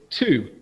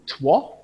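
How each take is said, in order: First: The word is said in its usual form. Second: The word is sounded out from its letters. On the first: The speaker calls it right. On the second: The speaker calls it wrong.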